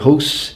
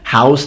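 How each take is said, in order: First: It is said with a regional accent. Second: It is said with a standard accent. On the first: "they say house" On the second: "there are in some accents that don't say"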